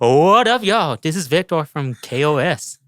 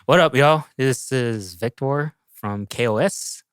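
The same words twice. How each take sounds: First: It is said lively with high energy. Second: It is said calmly with low energy.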